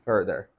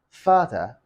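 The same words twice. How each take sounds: First: The R sounds are pronounced. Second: The R sounds are silent.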